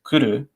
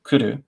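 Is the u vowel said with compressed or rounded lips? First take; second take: compressed; compressed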